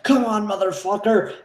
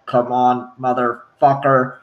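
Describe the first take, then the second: First: Acted challenge. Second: Low, slow mimicked replay; Predator voice playback. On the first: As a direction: play at daring a monster. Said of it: "someone will start to challenge the Predator". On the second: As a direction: repeat it like a creature replaying captured words. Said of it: "use the voice capture and play it back".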